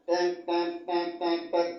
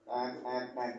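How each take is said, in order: First: High, sharp imitated turn-signal beeps; horn beeps. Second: Soft beeps. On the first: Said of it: "sennya bunyi". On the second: Retold or imitated. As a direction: mimic a truck backing up softly. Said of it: "Kayak truk mundur itu loh".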